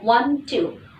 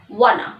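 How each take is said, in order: First: Both words are said fully and separately. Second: The words blend into one short reduced word.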